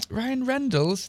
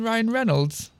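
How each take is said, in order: First: Reynolds misread as "Rendles", with a D in it; misspelt name as written. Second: Said in the usual way. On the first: Shown as a demonstration. Reader querying a typo, Reynolds said as "Rendles". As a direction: say Reynolds as "REN-dulls", puzzled and soft. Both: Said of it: "Do they mean Ryan Reynolds?".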